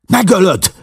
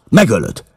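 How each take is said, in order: First: High desperate shout; a sharp cry breaking high. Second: High, loud accusing shout; Megölöd hammered down; angry shout. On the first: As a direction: yell it to stop the killing. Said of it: "kiáltott rá". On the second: McMurdo ends threat. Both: A narrator's reading.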